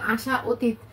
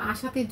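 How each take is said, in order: First: The two parts are said separately, not joined. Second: The two parts are merged into one word. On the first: The speaker calls it wrong. "মাধুর্য লাগছে না" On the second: The speaker calls it right. "সহজও হচ্ছে, আবার শুনতেও ভালো লাগছে"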